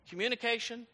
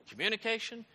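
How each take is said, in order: The two takes are said the same way.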